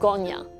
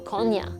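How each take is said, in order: First: The word begins with a g sound. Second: The word begins with a k sound. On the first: "or as he would pronounce it" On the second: "The gentleman you just heard is from Konya"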